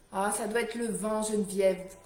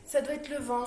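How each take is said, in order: First: Raised voice against the wind; shouting over wind. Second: Repeating it louder over the wind; raised voice, explaining the noise; shouting over wind. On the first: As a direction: call out over the gusts. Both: Real, not acted. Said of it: "oui, c'est la tempête".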